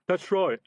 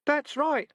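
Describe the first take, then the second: First: Quick, louder urgent plea; a robber urging, louder. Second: Much higher, squeaky rat chorus; rats' chorus. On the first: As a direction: hurry them along. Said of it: "said the highwayman urgently". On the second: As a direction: squeak it like rats hidden in trousers. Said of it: "a chorus of voices from his trousers". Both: A narrator's reading.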